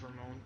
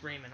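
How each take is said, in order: First: Ramon as ra-MONE, stress on the last syllable; accented name. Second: Raymond as RAY-mund, stress on the first syllable; plain English name. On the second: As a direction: say Raymond with a long ay. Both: Shown as a demonstration. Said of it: "It doesn't have the E with the fancy accent".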